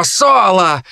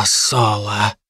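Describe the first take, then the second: First: Harpy calling out. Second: A low, quiet, hissing hint of the harpy. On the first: Acted. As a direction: summon him with a shrill call. Harpy calls Solo. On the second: Harpy Kai addresses Solo quietly, low harpy voice. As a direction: drop low and soft on the name.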